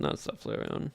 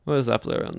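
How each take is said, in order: First: Whisper. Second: Said in the usual way. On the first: Real, not acted. Echoing the Flareon pick.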